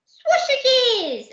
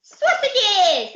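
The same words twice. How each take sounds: First: Put-on very high, squealing toddler voice; a delighted little boy shouting his favourite food; baby voice. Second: Put-on high, squealing toddler voice; baby voice. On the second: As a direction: blurt it out with childish glee. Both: Baby tells the pirates what he wants in a squeaky baby voice. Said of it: "he said".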